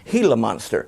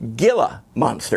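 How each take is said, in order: First: Gila begins with an H sound. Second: Gila begins with a hard G sound. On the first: The speaker calls it right. "the G's are pronounced like H's" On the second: The speaker calls it wrong. "would see G I L A, and they would say Gila monster. It's not"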